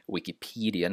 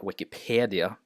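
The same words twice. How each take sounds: First: Wikipedia with an ee sound in the middle; correct Wikipedia. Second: Wikipedia with an eh sound, peh-dee; wrong Wikipedia. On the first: Teacher modelling the right vowel in Wikipedia. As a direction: say Wikipedia with a long E, pee-dee. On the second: Teacher showing the wrong vowel in Wikipedia. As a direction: say Wikipedia with a short E as the mistake. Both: Shown as a demonstration. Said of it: "not Wikipedia".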